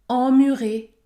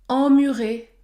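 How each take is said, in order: No difference in how they are said.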